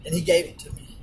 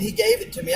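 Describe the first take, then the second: First: Said in the usual way. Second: "gave" lifted high with a rising tune; stress on gave. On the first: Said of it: "And I mean, he gave it to me". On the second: Shown as a demonstration. Telling how the cashier just gave him the drink, stress on "gave". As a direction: lean hard on "gave", amazed. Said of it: "And I mean".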